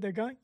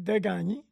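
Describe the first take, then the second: First: The name ends with a clear 'ay' vowel. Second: The name ends without a clear 'ay' vowel. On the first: The speaker calls it wrong. "pas Desgagnés, j'ai rien gagné" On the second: The speaker calls it right. "Ben oui, Desgagnés"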